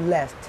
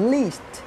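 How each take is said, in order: First: The vowel is a short mid e sound. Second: The vowel is a short high i sound. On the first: The speaker calls it right. "এটা হচ্ছে লেস্ট" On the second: The speaker calls it wrong. "এটা উচ্চারণ হচ্ছে লিস্ট না"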